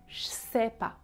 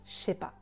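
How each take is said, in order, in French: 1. Le son s est conservé après un son ch. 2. Le son s est supprimé après un son ch. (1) "le son j qui est sonore devient sourd" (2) "parfois le s disparaît complètement"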